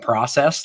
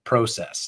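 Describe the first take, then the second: First: It is said with an American pronunciation. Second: It is said with a Canadian pronunciation. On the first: It sounds more boring. The speaker calls it wrong. "so much more boring in the American tone" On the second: It sounds more positive. The speaker calls it right. "the Canadian pronunciation of process. Like it's so much more positive"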